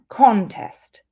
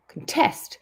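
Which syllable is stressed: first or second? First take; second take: first; second. First: The stress is on the first syllable. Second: The stress is on the second syllable. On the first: It is used as a noun. "stress on the beginning. The first syllable is the noun" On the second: It is used as a verb. "if we put the stress on the second syllable"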